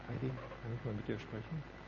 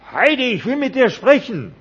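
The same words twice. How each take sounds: First: Quietly calling a name, softer; soft gentle call. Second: Much higher, loud demanding yell; pushy shout. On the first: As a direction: ask her gently and quietly. (leise, sanft rufend) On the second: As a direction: shout it at her insistently. (lauter, fordernder Schrei) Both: Acted. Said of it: "der kommt und sagt".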